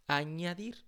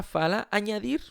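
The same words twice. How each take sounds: First: Said in the usual way. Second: Añadir said slowly and higher with a rising end; teacher models añadir for students, slow and stressed. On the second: Shown as a demonstration. Teacher models the Spanish word añadir for Brazilian students, slow and stressed. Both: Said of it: "pra não misturar, fala añadir".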